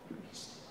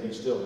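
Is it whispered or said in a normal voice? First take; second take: whispered; normal voice. First: It is whispered on an in-breath. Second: It is said in a normal voice.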